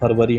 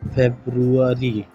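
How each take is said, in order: First: It is pronounced in a Hindi style. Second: It is pronounced in an English style. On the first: The speaker calls it wrong. "फरवरी हम कहते हैं" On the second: The speaker calls it right. "इसकी English pronunciation"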